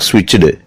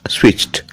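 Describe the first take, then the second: First: The ending is not a plain t sound. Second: The ending is a plain t sound. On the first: The speaker calls it wrong. "Not switched" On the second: The speaker calls it right. "T sound"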